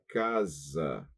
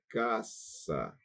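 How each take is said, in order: First: The middle consonant is a buzzing z sound. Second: The middle consonant is a hissing s sound. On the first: This is the Portuguese way of saying it. The speaker calls it wrong. "em português seria casa" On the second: This is the Spanish way of saying it. The speaker calls it right. "não é casa em espanhol, é caça"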